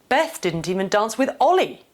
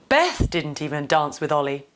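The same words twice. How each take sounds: First: The emphasis falls on the word Ollie. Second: The emphasis falls on the word Beth. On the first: The focus is on who was not danced with. "The first two point towards the two actors in this scenario" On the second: The focus is on who did not dance. "The first two point towards the two actors in this scenario"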